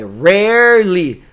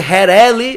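First: The r is said with the tongue curled back. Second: The r is said without curling the tongue. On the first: The speaker calls it right. "É só você enrolar a língua até você afogar" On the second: The speaker calls it wrong. "Se você tentar fazer rarely, vai errar"

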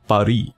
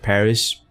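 First: The name is said in a fancy, showy way. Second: The name is said in a plain, ordinary way.

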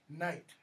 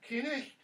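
First: The k and the throaty ch sound are silent. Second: The k and the throaty ch sound are pronounced. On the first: This is the modern form of the word. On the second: This is the older form of the word.

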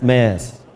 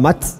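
First: The name is said the Danish way, like 'Mess'. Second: The name is said the German way, like 'Mats'. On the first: This is how the player's name is really said. The speaker calls it right. "aber er heißt Mess" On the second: This is how the locals say it. The speaker calls it wrong. "wie wir Magdeburger sagen, wir sagen Mats"

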